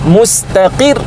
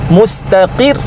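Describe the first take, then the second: The two takes are said the same way.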